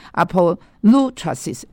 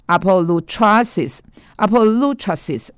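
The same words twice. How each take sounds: First: Apolutrosis with the lu syllable stressed. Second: Said in the usual way. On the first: Shown as a demonstration. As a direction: lean on lu in apolutrosis. (apolutrosis重音落在“路”上) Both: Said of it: "重音在路这个地方".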